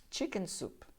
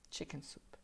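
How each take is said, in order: First: Said in the usual way. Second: Soft echo. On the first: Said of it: "model word for repetition". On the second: Shown as a demonstration. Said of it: "echo repeat, quieter".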